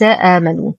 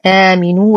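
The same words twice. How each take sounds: First: آمنوا said "aamanuu"; آمنوا with fatha on the meem; wrong vowel. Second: آمنوا said "aaminuu"; آمنوا with kasra on the meem; correct vowel. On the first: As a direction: give آمنوا an a after the m. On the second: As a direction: give آمنوا an i after the m. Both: Shown as a demonstration. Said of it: "وليس آمنوا".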